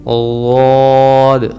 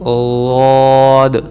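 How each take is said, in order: First: The letter is said with a soft lateral sound. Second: The same.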